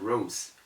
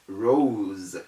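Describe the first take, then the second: First: The word ends with an s sound. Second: The word ends with a z sound. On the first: The speaker calls it wrong. "instead of" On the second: The speaker calls it right. "That's the correct pronunciation of the word"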